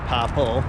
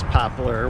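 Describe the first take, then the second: First: The word ends in an L sound, no R. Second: The word ends with a clear R sound. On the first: This is the local form from home. "Where I grew up, we call it popple" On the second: This is the standard form. "The correct pronunciation is poplar"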